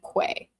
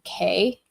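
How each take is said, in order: First: The word sounds like 'kway'. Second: The word sounds like 'key'. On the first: The speaker calls it wrong. "So I've always said quay" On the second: The speaker calls it right. "a fancier word than just saying K"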